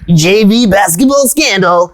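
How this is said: It is read in a wild sports-announcer voice.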